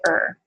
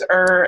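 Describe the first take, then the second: First: The vowel is clipped short. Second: The vowel is held long. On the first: "it goes from long to short" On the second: "it goes from long to short"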